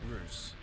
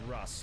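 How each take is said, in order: First: The vowel is long, as in 'goose'. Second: The vowel is short, as in 'bus'. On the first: The speaker calls it wrong. "not Roos" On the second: The speaker calls it right. "I'm pretty sure you pronounce it Russ"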